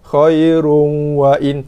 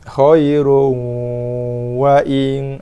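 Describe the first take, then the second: First: The nasal hum is held only briefly. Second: The nasal hum is held noticeably longer. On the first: The speaker calls it wrong. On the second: The speaker calls it right.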